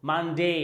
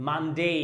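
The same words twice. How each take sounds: The two takes are said the same way.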